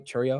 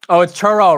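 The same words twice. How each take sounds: First: Churro said as "cheer-ee-oh" with a doubtful rise; mispronounced churro. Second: Churro said properly as "chur-oh", louder and sure; churro, no extra "ee", said with sudden certainty; corrected pronunciation. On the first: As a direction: say Churro wrongly as "shairy-oh", unsure. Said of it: "Am I saying that right?". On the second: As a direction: fix it, "churro" in two clean syllables. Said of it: "Sorry, it's churro". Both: Shown as a demonstration.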